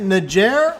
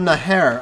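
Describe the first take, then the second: First: The middle consonant is a J sound. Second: The middle consonant is an H sound. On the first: The speaker calls it right. "is is is the J?" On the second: The speaker calls it wrong. "in Spanish it would be an H, so that's why I was saying Naher"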